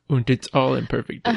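The first word is said German-style as "und".

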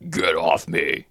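It is said in a harsh demonic growl.

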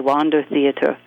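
The name is said with American pronunciation. "here in America, I believe you say Wander Theater"

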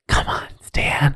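It is whispered, imitating Betty.

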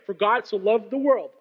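There is a pause after 'world'. The focus is on the world being loved. The speaker calls it wrong.

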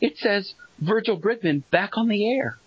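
It is said in an imitated character voice.

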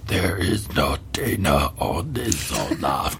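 It is said in a put-on, Yoda-like voice.

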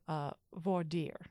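Dire is one syllable, close to French. "it's pronounced close to the French original pronunciation"

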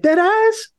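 It sounds amused and surprised.

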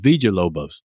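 The name is said with a Spanish pronunciation. The speaker calls it right. "you're saying it's Villalobos"

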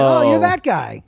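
The tone sounds happy and pleased. The speaker is pleased with the person. "it's a happy that guy"

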